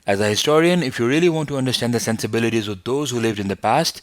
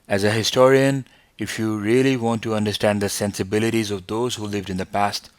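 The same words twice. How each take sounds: First: It is spoken at a faster pace. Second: It is spoken at a slower pace. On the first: The speaker calls it right. "if you can go faster like this" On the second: The speaker calls it wrong. "instead of going like this"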